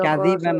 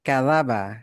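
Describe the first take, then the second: First: The middle vowel is an 'i' sound. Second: The middle vowel is an 'a' sound. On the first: The speaker calls it wrong. "কাযিবা না" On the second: The speaker calls it right. "এটা কাযাবা"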